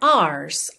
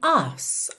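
First: The R is pronounced, a rolled rhotic R. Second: The R is silent, British style.

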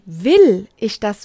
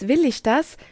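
First: The question is said with strong emphasis. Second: The question is said plainly, without special emphasis.

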